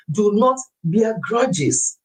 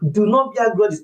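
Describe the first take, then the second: First: Each word slowed and weighed, stress on not; drawn-out solemn advice; slow emphatic warning. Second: "not" hit firmly in a brisker repeat; firm, clipped-pace repetition. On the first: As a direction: lay down "Do not bear grudges" slowly, leaning on "not". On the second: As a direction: say "Do not bear grudges" again, quicker and punchier on "not". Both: Shown as a demonstration.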